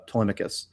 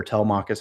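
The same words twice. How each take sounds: First: Telemachus said the first of two ways; first variant pronunciation of Telemachus; one pronunciation of Telemachus. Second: Telemachus said the second of two ways; second variant pronunciation of Telemachus; alternative pronunciation of Telemachus. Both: Shown as a demonstration. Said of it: "however you wanna pronounce it".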